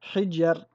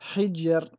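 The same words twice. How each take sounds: No difference in how they are said.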